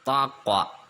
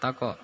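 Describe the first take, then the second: First: The q sound bounces very strongly and deeply. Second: The q sound bounces lightly and moderately. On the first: The speaker calls it wrong. "terlalu nyengkluk atau apa ya bahasa Indonesianya itu, dalam" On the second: The speaker calls it right. "yang maksudnya biasa"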